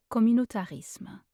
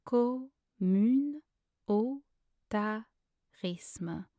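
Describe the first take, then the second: First: Said in the usual way. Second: Very slow, separated French syllables. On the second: Shown as a demonstration. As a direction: break it into syllables for a learner. Pronunciation guide, syllable-by-syllable take.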